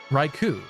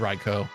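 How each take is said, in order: First: The name ends with a 'koo' sound. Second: The name ends with a plain 'koh' sound. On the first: "So to me, that's like Ku" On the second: "It could also just be Raiko"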